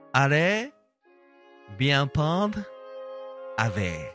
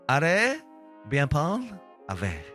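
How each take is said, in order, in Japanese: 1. ゆっくり丁寧に、はっきり言っています。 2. さらっと軽く、カジュアルに言っています。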